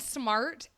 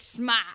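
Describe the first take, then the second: First: The R and T sounds are pronounced. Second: The R and T sounds are dropped. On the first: "it's not even smart" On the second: "you can't pronounce the R or the T"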